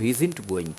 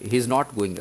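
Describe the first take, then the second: First: "isn't" said as one quick syllable pair, iz-nt; contracted form. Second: Said in the usual way. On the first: Shown as a demonstration. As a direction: run "he isn't going" together fast. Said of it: "तो ये थोड़ा fast लगता है". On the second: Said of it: "he is not going के मुकाबले".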